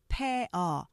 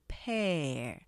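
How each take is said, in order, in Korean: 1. 이 단어는 두 음절로 발음해요. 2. 이 단어는 한 음절로 발음해요. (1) "pear 그렇게 발음하시지만" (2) "이것도 이름절이에요"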